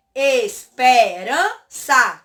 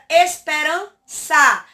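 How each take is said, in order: First: "Esperança" very slowly as es, pe, ran, ça; syllable by syllable. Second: Said in the usual way. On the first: Shown as a demonstration. Teacher has pupils count syllables, "Esperança" chopped into four slow beats. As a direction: break "Esperança" into four drawn-out, separate syllables. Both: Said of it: "Tem quantas sílabas?".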